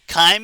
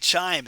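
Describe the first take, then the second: First: The word begins with a 'k' sound. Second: The word begins with a 'ch' sound. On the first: The speaker calls it right. "It's k-k-chyme" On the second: The speaker calls it wrong. "Don't say chime"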